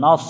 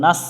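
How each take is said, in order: First: নস with thick, heavy s; heavy sad. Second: নাস with thin s; plain thin নাস; wrong pronunciation. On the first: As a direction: make the s in নস full and heavy. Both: Shown as a demonstration. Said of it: "সদ অক্ষর একটু মোটা করে".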